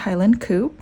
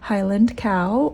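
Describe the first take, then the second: First: Cow is said the Scottish way, as coo. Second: Cow is said in her ordinary accent.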